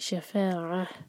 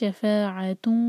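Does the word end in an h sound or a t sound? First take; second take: h sound; t sound. First: The word ends in a soft h, then stops. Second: The word ends in -tun, flowing into the next word. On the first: The reciter pauses at this word. "ہا میں چینج ہو جاتا ہے اور پھر اس کو ساکن کر کے رکیں گے" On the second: The reciter continues without pausing. "ورنہ آگے پھر کنٹینیو کرنا ہوگا"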